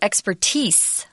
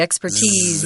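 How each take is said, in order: First: The word ends with an s sound. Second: The word ends with a z sound. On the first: "you can also say expertise with an S" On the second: "Tom and I tend to do the Z"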